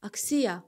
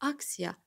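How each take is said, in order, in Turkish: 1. Vurgu ikinci hecededir. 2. Vurgu birinci hecededir. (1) "i-nin üzərinə ataq" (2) "Demək vurğu hardadır? Birdə"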